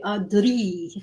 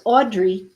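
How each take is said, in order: First: Audrey with the r rolled after the d; "Audrey" said elfin-style, tongue-rolled r. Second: Audrey said the everyday English way, no roll; plain "Audrey" with an ordinary unrolled r; common mispronunciation. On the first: Artist correcting how their character is named, rolled r in Audrey. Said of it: "I'm putting the roll in". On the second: Artist quoting how some people pronounce their character, plain unrolled Audrey. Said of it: "They pronounce her name as". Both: Shown as a demonstration.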